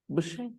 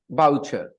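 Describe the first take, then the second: First: The name is said with a French pronunciation. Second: The name is said with an English pronunciation. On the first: "But in French, ... they will not pronounce it Boucher. They might pronounce it Boucher" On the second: "Most people will pronounce it boucher. English people also pronounce it boucher"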